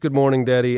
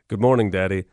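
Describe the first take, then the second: First: It sounds warm and happy to see you. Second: It sounds menacing, like a supervillain.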